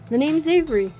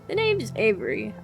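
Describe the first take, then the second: First: It is spoken without the old lady voice. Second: It is spoken in a put-on old lady voice. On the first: The speaker is the younger character. The speaker calls it right. "I think you're Avery" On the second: The speaker is the elderly character. The speaker calls it wrong. "Give them an old lady voice"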